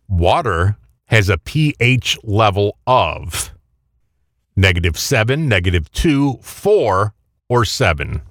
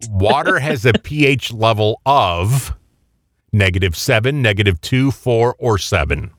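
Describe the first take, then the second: First: The question is read at a slower pace. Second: The question is read at a normal pace.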